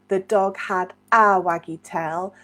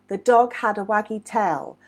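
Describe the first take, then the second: First: The word 'a' is said clearly and carefully. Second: The word 'a' is barely heard at natural speed.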